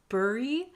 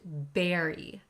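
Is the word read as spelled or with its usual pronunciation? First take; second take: as spelled; usual pronunciation. First: The word is read the way it is spelled. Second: The word is said with its usual pronunciation. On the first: The speaker calls it wrong. "The first word looks like bury" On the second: The speaker calls it right. "but it's pronounced bury"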